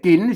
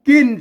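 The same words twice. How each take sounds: First: The syllable is said with the jattawa tone. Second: The syllable is said with the tho tone. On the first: "เสียงจันวา" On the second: "เสียงโท"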